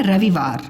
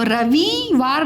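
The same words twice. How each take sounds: First: रविवार with short vi, lower; सही छोटी इ. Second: रविवार said ra-vee-waar; गलत लंबी ई. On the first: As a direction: keep वि quick in रविवार. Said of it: "क्या बोलते हैं". (रविवार में वि छोटा) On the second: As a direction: stretch वि in रविवार. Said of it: "रविवार नहीं बोलते हम". (रविवार को रवीवार जैसा) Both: Shown as a demonstration.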